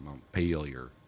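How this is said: The name is given an American pronunciation. "we in the States would call it Montpelier"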